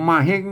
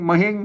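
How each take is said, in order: The two takes are said the same way.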